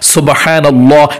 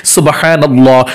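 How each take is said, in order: Both takes have the same delivery.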